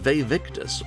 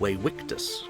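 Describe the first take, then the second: First: The name is pronounced the ordinary English way. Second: The name is pronounced the classical Latin way.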